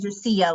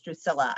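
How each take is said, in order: First: The name is pronounced in a Spanish way. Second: The name is pronounced in an English way. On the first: The speaker calls it wrong. "like it's a Spanish pronunciation" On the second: The speaker calls it right. "I'm quite sure it's Drusilla"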